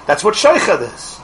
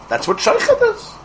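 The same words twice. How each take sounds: First: Said in the usual way. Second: A much higher, squeaky take on "sheikhad". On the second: Shown as a demonstration. Rabbi repeating the key word to the class in a high squeak. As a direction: toss "That's what sheikhad is" up into a high squeak.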